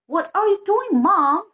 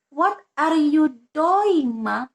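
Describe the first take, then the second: First: It is said with a native English-sounding accent. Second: It is said with an Indonesian-sounding accent. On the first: The speaker calls it right. "That's exactly" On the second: The speaker calls it wrong. "No, it's false"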